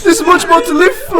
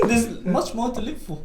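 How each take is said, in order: First: High, laughing, half-crying wail; mock tearful laughing. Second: Laughing, can't keep straight. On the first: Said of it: "He's like". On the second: Real, not acted. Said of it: "You couldn't even say that straight".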